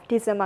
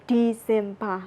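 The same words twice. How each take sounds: First: DECEMBER with an unstressed middle and ending; English pronunciation. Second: DECEMBER in Burmese accent, "dee-zim-BA". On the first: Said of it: "we say December". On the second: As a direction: say DECEMBER with full "zim" and open "ba". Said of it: "we say December in Burmese accent". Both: Shown as a demonstration.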